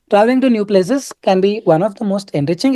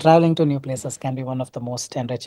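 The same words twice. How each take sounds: First: It is read in a stiff, artificial way. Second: It is read in a relaxed, natural way. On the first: The speaker calls it wrong. "what constitutes not being natural? Let me just show you that" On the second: The speaker calls it right. "You gotta nat- be natural"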